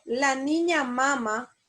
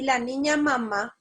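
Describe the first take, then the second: First: "mama" stressed on its first syllable, MA-ma. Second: "mamá" stressed on its final syllable, ma-MÁ; stress on last syllable. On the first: Teacher contrasting two phrases for students, "mama" stressed MA-ma. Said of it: "¿hay diferencias?". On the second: Teacher contrasting two phrases for students, "mamá" stressed ma-MÁ. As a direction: land the weight on the final MÁ of "mamá". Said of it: "el acento o la rayita en este caso hace la diferencia". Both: Shown as a demonstration.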